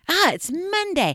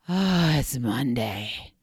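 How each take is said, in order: First: It is said in an eager, excited tone. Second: It is said in a flat, unexcited tone.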